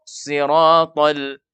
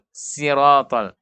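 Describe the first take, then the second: First: The first consonant sounds thick and heavy. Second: The first consonant sounds thin and light. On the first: The speaker calls it right. "pakai shad" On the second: The speaker calls it wrong. "itu terbaca tipis"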